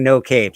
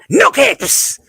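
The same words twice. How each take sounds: First: It is said in the speaker's normal voice. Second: It is said in a put-on character voice.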